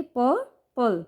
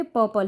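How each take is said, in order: First: purple broken into two parts, पर and पल, with a pause between; split into syllables. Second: Said in the usual way. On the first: Shown as a demonstration. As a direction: say purple slowly, one syllable at a time. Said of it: "दो भागों में break करेंगे". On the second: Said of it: "जब भी हम किसी word को break करेंगे".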